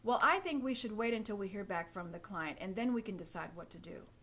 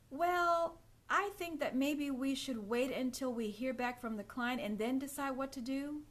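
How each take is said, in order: First: It sounds confident and matter of fact. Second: It sounds hesitant, rising like a question.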